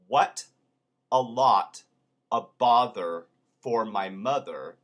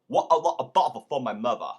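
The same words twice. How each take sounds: First: The T sounds are fully pronounced. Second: The T sounds become glottal stops. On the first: "Instead of" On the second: "it becomes"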